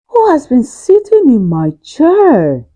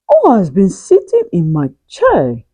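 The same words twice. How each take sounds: First: It is said in a very loud voice. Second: It is said in a medium voice.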